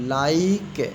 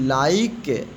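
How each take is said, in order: No difference in how they are said.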